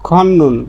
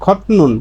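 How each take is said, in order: First: The middle consonant becomes a doubled n sound. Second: The middle consonant is a clear t sound. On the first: The speaker calls it right. "কিন্তু এর সঠিক উচ্চারণ হচ্ছে খন্নুন, মানে উচ্চারণ করার সময় এভাবে করবেন" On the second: The speaker calls it wrong. "স্বাভাবিকভাবেই এর উচ্চারণটা হতো কি খতনুন"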